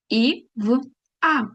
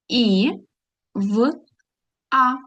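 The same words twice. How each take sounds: First: The letters are read quickly. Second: The letters are read slowly. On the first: "а потім пробуємо швидше" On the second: "спочатку повільно"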